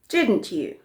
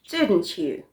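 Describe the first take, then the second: No difference in how they are said.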